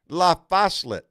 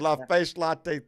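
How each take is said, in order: First: The name ends with a 'set' sound. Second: The name ends with a 'latte' sound. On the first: The speaker calls it right. "Yes, you got it" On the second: The speaker calls it wrong. "No, no, no"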